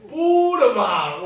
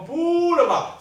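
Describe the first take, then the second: First: 很慢地念"boulevard"，重音在最后的"vard"; 像俄罗斯人一样重读"boulevard"的结尾; 俄语重音. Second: "boulevard"重音放在第一个音节"bou"; 像英语一样重读"boulevard"的开头; 英语重音. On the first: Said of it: "重音是最重要啦". (大声慢慢念"boulevard"，重音放尾巴) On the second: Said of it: "英语就会讲boulevard". (念"boulevard"时重读"bou") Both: Shown as a demonstration.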